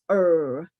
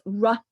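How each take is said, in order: First: The R sound is held long with no vowel. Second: The R sound is cut short with a vowel. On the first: This is how the programme teaches it now. The speaker calls it right. "but actually it's R" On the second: This is how it was taught in the past. The speaker calls it wrong. "You may have pronounced the sound as R"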